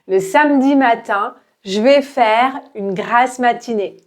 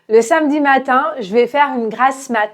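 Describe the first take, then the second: First: The sentence is spoken at an ordinary, moderate speed. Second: The sentence is spoken quickly, with the last word clipped. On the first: "à la vitesse normale" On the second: "de manière rapide"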